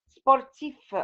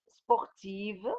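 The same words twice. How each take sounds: First: Sportif with a clear final F sound; sportif, final F clearly voiced; masculine form. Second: Sportive ending in a soft V sound; sportive, final V clearly sounded; feminine form. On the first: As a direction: say sportif ending crisply on F. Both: Shown as a demonstration.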